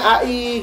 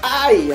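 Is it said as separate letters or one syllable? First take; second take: separate letters; one syllable. First: Two separate letter names are spoken. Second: It is spoken as a single syllable. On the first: "Yang benar tuh huruf besar A, huruf besar I, bacanya A I" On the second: "pembaca layar ... bacanya eh, hai gitu ya, atau ai"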